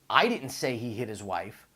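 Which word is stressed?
I. The word "I" carries the stress.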